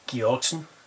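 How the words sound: The name is pronounced the Icelandic way. "The Icelandic version would be"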